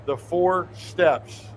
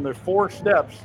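First: "four" drawn out and leaned on, dropping; disbelieving emphasis on "four" as he repeats it; slow stress on four. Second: Said in the usual way. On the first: Real, not acted. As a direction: spell out The four steps slowly, hitting "four".

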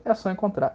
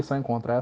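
First: Said in the usual way. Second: "só encontrar" said lower and softer as a quick fix; lower, softer self-correction after a slip; muttered retry. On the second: Real, not acted. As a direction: mumble the correction under your breath. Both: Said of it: "Ih, errei".

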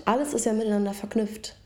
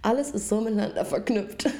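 First: Said in the usual way. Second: Whispered after choking; choked whisper. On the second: Real, not acted. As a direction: whisper it, throat still caught. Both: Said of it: "Ich hab mich verschluckt".

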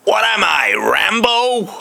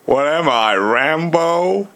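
First: High, drawn-out American drawl; American accent. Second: Slow Southern American drawl rising at the end. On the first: Mimicking [name]'s comeback to [name], American accent. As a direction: put on an exaggerated American accent. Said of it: "in a more American accent". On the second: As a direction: put on a simple-minded Southern American accent. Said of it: "I can only think of Forrest Gump". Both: Pretend.

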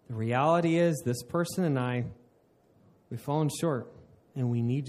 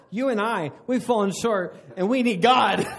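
First: Sincere prayer. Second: Higher, louder, laughing; laughing mock accusation; mocking wrong way. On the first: Shown as a demonstration. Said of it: "This is to say". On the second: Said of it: "I'm not saying do that".

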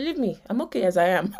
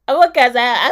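First: Said in the usual way. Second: Louder, mock-stubborn repeat of the husband. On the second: Husband's line repeated after laugh.

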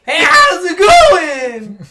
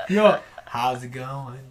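First: High, shouted mock Wisconsin accent; slow, blaring Wisconsin greeting. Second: Low, slow attempt at Wisconsin accent; subdued, drawn-out Wisconsin greeting; second Wisconsin accent attempt. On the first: Trying Wisconsin for friends, high drawn-out shouted accent. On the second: Retrying Wisconsin for friends, low slow accent.

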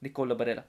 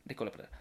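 First: Nicola Barella in an Italian accent, rolled and sung out. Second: Said in the usual way. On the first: Shown as a demonstration. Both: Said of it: "I'm gonna do an Italian accent".

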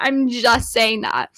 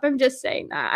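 First: Slower, each word landed on "I'm just saying that"; slow pointed repeat. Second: Said in the usual way. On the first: Shown as a demonstration. Telling viewers her theory, slowly and pointedly. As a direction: lean on it, take your time. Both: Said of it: "repeated for emphasis".

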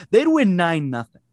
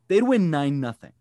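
First: Excited. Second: Said in the usual way. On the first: Real, not acted. Excited hockey fantasy.

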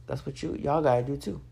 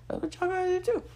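First: Said in the usual way. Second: Higher playful echo; higher playful repeat. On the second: Real, not acted. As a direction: repeat "That's what y'all gotta do too" much higher in a light sing-song. Repeats advice, higher pitched.

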